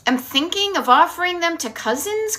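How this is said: The voice rises at the end, like a question.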